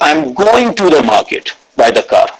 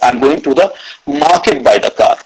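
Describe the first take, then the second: First: The word 'going' carries the stress. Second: The word 'market' carries the stress. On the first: The person is going, not coming back or doing something else. "Second is" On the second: The destination is the market, not another place. "Third is market"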